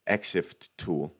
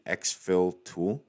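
First: Exif said slowly as "EX-if", ending in F; slow, careful "exif", no L at the end; corrected pronunciation. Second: Exif said as "exfil"; mispronounced tool name. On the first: Shown as a demonstration. Vlogger correcting the tool's name, slow careful pronunciation of exif. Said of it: "That's how you pronounce it". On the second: Real, not acted. Vlogger guessing the tool's name, mispronounced as "exfil". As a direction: slip an L onto the end of exif, "exfil". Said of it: "what's actually, uh".

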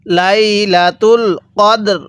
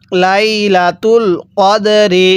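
First: Slow recitation stopping on a plain কদর, no final vowel; pausal stop form. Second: Slow, drawn-out লাইলাতুল কদরি with a short clear রি at the end; joined recitation form. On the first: Teacher shows students how to stop on the word, slow and drawn out. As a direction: draw out লাইলাতুল কদর slowly and close on a bare কদর. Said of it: "লাইলাতুল কদরি ওয়াকফ করলে কিভাবে". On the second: Teacher has students read along, slow and drawn out. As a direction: recite লাইলাতুল কদরি slowly, keeping the ending রি. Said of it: "কিভাবে পড়তে হবে?". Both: Shown as a demonstration.

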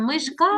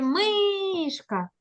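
First: "Мишка" wrongly stressed as мишКА; short МИ, rising stressed КА in "Мишка"; stress on last syllable. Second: "мишка" as МИшка, high and very drawn out; slow calling МИ in "мишка"; stress on first syllable. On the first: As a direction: lean on the final КА of "Мишка". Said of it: "А що ми кажемо?". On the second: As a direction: stretch a high МИ in "мишка", then drop on ка. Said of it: "на який склад у нас падає наголос". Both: Shown as a demonstration.

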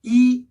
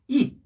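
First: "이" held high and level; high, level first tone on "이". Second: "이" with a firm falling tone; short falling fourth tone on "이". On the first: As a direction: keep "이" on one high note. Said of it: "일 성으로 발음이 돼요". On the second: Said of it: "사성을 읽어주고요". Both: Shown as a demonstration.

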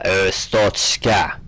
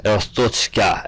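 First: Estochka drawn out even slower, vowels stretched; careful name reading. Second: Estochka read slowly, syllable by syllable; careful name reading. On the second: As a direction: sound out Estochka slowly, a careful first try. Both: Shown as a demonstration. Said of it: "I hope I'm not butchering it".

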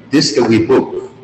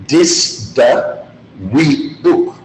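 First: Said in the usual way. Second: "Dis da we book" slowly, each word separate; slow teaching demo of "Dis da we book". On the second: Shown as a demonstration. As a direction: space out "Dis da we book" for learners. Teacher breaks phrase down word by word.

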